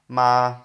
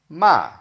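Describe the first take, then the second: First: The pitch stays level and flat. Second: The pitch falls sharply from high. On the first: It means mother. "if you have a flat tone" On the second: It means to scold somebody. "like a falling tone"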